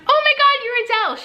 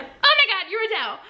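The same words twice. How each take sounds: First: High, loud starstruck squeal; starstruck gush. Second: High, breathless, laughing gush; starstruck again, fading. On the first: Fan meeting her idol, high excited squeal. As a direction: blurt it out in disbelief. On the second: Fan repeats herself to her idol, laughing. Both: Retold or imitated.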